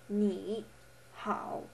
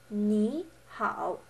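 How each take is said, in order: First: The first syllable has a dipping third tone. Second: The first syllable has a rising second tone. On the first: "Note how this is different from ni hao" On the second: "So it becomes ni hao"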